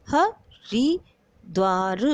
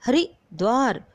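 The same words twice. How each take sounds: First: "हरिद्वार" very slowly in three parts, ह, रि, द्वार; syllable-by-syllable demo. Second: Said in the usual way. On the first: Shown as a demonstration. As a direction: sound out "हरिद्वार" with gaps between syllables. ("हरिद्वार" को तोड़-तोड़कर धीरे बोलें) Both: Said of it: "छोटी ई की मात्रा का प्रयोग".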